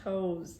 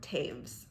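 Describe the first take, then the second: First: The name sounds like the word toes. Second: The name sounds like taves, rhyming with waves. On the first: The speaker calls it wrong. "I want to say Toes so bad when it's not Toes" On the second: The speaker calls it right. "Miriam Taves"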